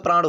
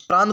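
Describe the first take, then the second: First: प्राण ending in a retroflex ण, tongue curled back; correct spelling said aloud. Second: प्राण with a plain dental n, shown as the wrong form; wrong spelling said aloud. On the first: Teacher gives students the correct प्राण, ending in a retroflex ण. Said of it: "शब्द क्या होता है?". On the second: Teacher voices the wrong word प्राण for students, ending in a dental n. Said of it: "प्राण कोई शब्द नहीं". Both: Shown as a demonstration.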